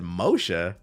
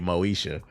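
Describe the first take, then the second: First: The name is said as Moshe. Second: The name is said as Moesha. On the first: A machine mispronounced the name. The speaker calls it wrong. "the A I didn't know how to pronounce it" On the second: This is the intended name. The speaker calls it right. "it meant to say Moesha"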